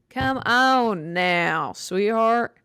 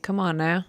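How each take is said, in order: First: Slow, drawn-out put-on voice, louder; mock patronizing scold. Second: Said in the usual way. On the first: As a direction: talk down to them like a condescending aunt. Mock scolding about Anne Frank.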